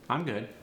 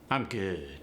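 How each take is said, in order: First: It is said in a standard American accent. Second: It is said in an African American Vernacular accent. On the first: "in standard American English, I might say" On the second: "In the A A V vernacular, it's going to sound more like"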